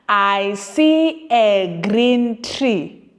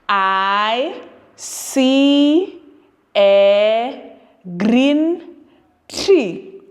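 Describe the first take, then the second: First: It is read fast. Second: It is read slowly.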